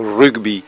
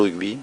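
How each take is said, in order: First: The g sound is pronounced strongly. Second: The g sound is pronounced lightly. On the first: This is how people say it in the southwest. "dans le sud-ouest, on accentue un peu sur le G" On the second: This is how people say it where the speaker lives. "chez nous, on dit le rugby"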